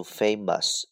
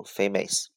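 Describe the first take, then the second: First: British English famous; British pronunciation. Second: American English famous; American pronunciation. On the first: Teacher showing learners the British reading, British "famous" with a reduced ending. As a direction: say "famous" the British way, FAY-muhs. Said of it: "英式发音读". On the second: Teacher contrasting it with British for learners, American "famous". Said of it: "美式发音读". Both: Shown as a demonstration.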